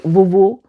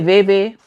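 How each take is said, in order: First: The first syllable sounds like 'view'. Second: The first syllable does not sound like 'view'. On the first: "vuvu is like view" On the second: "Some people say veve"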